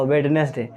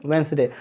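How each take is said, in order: First: वेडनेसडे with every letter sounded, wed-nes-day; wrong pronunciation. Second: वेंसडे with the d silent, two syllables wens-day; correct pronunciation. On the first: Retold or imitated. Teacher to students, quoting the common wrong वेडनेसडे. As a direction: say वेडनेसडे spelled out, d sounded in the middle. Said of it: "wrong है". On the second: Shown as a demonstration. Teacher to students, modelling the correct वेंसडे. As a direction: say वेंसडे, skipping the middle d. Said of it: "उसका real pronunciation होता है वेंसडे".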